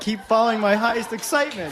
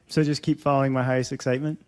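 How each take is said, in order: First: It ends with a firm, confident fall. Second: It ends with a questioning rise.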